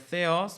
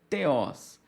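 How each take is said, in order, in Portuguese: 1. Começa com um som de th suave, com sopro. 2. Começa com um som de t duro e simples. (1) "seria theos" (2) "podemos ler também como teos"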